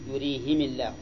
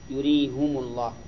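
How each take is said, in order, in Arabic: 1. كل من الهاء والميم عليه كسرة. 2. كل من الهاء والميم عليه ضمة. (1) "كسر الهاء والميم" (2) "وضمهما"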